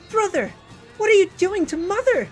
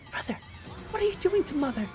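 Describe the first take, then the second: First: It is spoken in a normal voice. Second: It is spoken in a whisper.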